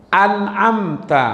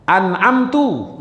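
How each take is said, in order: First: Slow An'amta ending in a clear ta; an'amta with fatha. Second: Slow An'amtu ending in a clear tu; an'amtu with damma. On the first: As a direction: draw out An'amta, ta at the end. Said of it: "ini huruf di atas". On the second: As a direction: draw out An'amtu, tu at the end. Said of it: "huruf di bawah". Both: Shown as a demonstration. Teacher contrasts the vowels for students.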